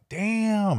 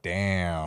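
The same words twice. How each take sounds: First: It sounds impressed and admiring. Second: It sounds disappointed and dismissive. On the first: The work is amazing. "some of them are like" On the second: The work is bad and should be abandoned. "Pack it up"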